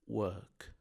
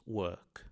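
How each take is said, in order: The two takes are said the same way.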